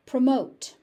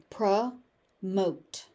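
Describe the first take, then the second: First: Said in the usual way. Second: "Promote" split into pruh, pause, mote; teaching breakdown of "Promote"; syllable by syllable. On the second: Shown as a demonstration. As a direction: break "Promote" in two with a clear gap.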